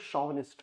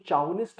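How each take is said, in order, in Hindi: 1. यह शब्द 'sh' ध्वनि से शुरू होता है। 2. यह शब्द 'ch' ध्वनि से शुरू होता है। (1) "इसको शॉविनिस्ट प्रोनाउंस कर" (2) "इसको चाउनिस्ट मत पढ़ना"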